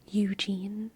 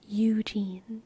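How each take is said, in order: No difference in how they are said.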